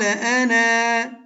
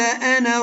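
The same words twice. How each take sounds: First: The final vowel is drawn out long, two counts. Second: The final vowel is short, running into next word. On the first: The reciter stops at this word. "ها شنو بالوقف" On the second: The reciter continues into the next words. "أنطي النون مفتوحة مباشرة للراء"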